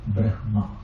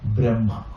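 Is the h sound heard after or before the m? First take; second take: before; after. First: The h sound comes before the m. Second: The h sound comes after the m. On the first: This is the everyday, non-Vedic way of saying it. "One is to pronounce as it is written" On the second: This is the Vedic way of saying it. "in the Vedic pronunciation, when h comes before and m later, that will be reversed"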